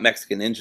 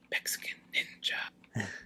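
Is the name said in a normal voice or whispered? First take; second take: normal; whispered. First: The name is said in a normal voice. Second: The name is said in a whisper. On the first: The speaker calls it wrong. "you didn't get it right" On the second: The speaker calls it right. "he whispers it"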